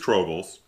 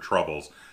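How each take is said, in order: First: The first syllable sounds like 'trob', as in robe. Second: The first syllable sounds like 'trub', as in trouble. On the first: The speaker calls it right. "No, it is Trobles" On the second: The speaker calls it wrong. "I was mispronounced. I was calling it Asking for Troubles"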